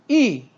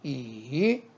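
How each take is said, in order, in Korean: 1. 음높이가 높은 데서 낮게 확 떨어져요. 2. 음높이가 낮게 내려갔다가 올라가요. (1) "사성" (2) "삼성"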